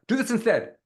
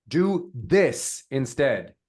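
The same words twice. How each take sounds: First: High-pitched all through, no pause. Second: Very slow, "this" set apart with weight; stress on THIS. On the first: Coach shows another wrong delivery, pitched high. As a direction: lift the whole phrase up high. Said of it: "Even if I said that high". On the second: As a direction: space out each word and land on "this". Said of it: "It's all in the actual delivery". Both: Shown as a demonstration.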